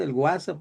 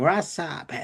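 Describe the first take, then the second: First: WhatsApp said the Mexican way, with a g sound before the w, as gwasap; Mexican Spanish pronunciation. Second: WhatsApp said the English way, as whats-app, with no g sound; American English pronunciation. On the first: The teacher shows his class how Mexicans say WhatsApp. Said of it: "Aquí en México decimos". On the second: The teacher imitates how Americans say WhatsApp for his class. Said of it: "porque ellos dicen". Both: Shown as a demonstration.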